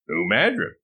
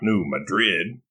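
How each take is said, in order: First: Madrid sounds unlike the Spanish city's name. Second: Madrid sounds like the Spanish city's name. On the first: The speaker calls it right. "New Madrid is pronounced New Madrid" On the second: The speaker calls it wrong. "not New Madrid, like the city in Spain"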